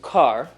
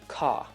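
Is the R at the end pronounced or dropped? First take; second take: pronounced; dropped. First: The final R sound is clearly pronounced. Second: The R is dropped, ending on an open ah. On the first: "like we would in America" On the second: "you'd say ka"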